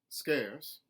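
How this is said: The R sound is lightly pronounced. "a contemporary Southern, where those R colorations are put back in"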